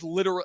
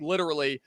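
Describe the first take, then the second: First: The middle vowel is dropped, said as three syllables. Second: The middle vowel is kept, said as four syllables. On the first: This is how a friend says it. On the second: This is the usual way to say it.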